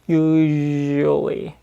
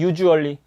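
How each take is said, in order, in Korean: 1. 'usually'의 가운데 자음은 부드럽고 힘을 뺀 유성음이에요. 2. 'usually'의 가운데 자음은 세고 긴장된 한국어 ㅈ 소리예요. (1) "부드럽게 넣을 수가 있게 되는 거" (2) "과하게 힘이 들어가니까 국어의 지읒 발음이"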